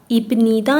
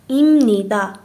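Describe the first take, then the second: First: A b sound comes before nida. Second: An m sound comes before nida. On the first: The speaker calls it wrong. "ایب نیدا نیست" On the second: The speaker calls it right. "پیوب صدای م میگیره"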